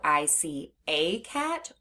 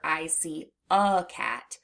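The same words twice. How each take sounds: First: The word 'a' has a long A sound. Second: The word 'a' has a schwa sound. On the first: "we hear the long A sound in the word A" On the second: "That schwa sound is when someone says the word A as a"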